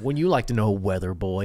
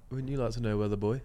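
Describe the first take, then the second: First: Put-on cheeky kid retort, lower on "weather boy"; imitating a smug kid on the news; sassy kid quote. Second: Put-on soft, lower teasing kid line; quoting the viral kid, softly teasing; sassy kid quote. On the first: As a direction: deliver the viral kid's smug comeback. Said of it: "He's like, like". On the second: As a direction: tease him like the cheeky kid. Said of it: "have you not seen that clip".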